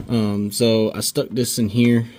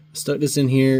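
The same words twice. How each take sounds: First: Winded, breathless speech; out of breath. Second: Said in the usual way. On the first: Real, not acted. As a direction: talk while catching your breath. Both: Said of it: "I'm out of breath".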